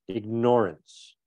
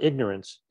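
First: It is said like the verb ignore plus ance. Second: It is the usual pronunciation of ignorance. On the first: Consciously choosing to ignore shown information. The speaker calls it right. "I pronounce that word differently than most people" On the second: Not knowing something. The speaker calls it wrong. "It's not ignorance"

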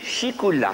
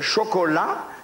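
First: The first vowel is an 'i' sound. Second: The first vowel is an 'o' sound. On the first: This is how the word is said locally. "chez nous, on dit chicoula" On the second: This is how the word is said everywhere else. "dans le monde entier, on dit chocolat"

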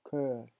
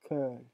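No difference in how they are said.

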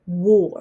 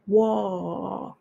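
First: The vowel sounds like the word 'or'. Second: The vowel sounds like the 'ar' in army. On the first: The speaker calls it right. "War って言うんですね。だからWOR と同じだと思ってください。" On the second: The speaker calls it wrong. "War とは言わないで"

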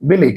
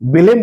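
First: The word ends on a vowel without m. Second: The word ends with a clear m sound. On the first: The speaker calls it right. "Actually এর উচ্চারণটা হবে বেলে" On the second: The speaker calls it wrong. "আমরা অনেকেই বেলেম বলে জানি"

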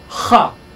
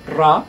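First: The r is a voiceless rasping fricative sound. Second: The r is trilled with the tongue tip. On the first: "a voiceless velar fricative" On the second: "an alveolar trill"

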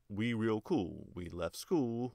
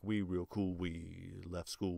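First: It is read with an even, regular rhythm. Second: It is read with a syncopated, off-beat rhythm.

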